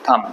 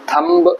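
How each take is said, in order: First: The word ends without any b sound. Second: A b sound is heard at the end. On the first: The speaker calls it right. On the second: The speaker calls it wrong. "थम्ब नहीं है"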